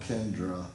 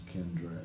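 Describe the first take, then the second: First: Kendra ending in an unstressed "uh"; mistaken name pronunciation. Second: Kendra ending in an "ay" sound; corrected name pronunciation. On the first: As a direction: say Kendra as KEN-druh. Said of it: "He's the guy who I call Kendra". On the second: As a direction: say Kendra as KEN-dray. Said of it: "and he said it was Kendra". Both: Shown as a demonstration.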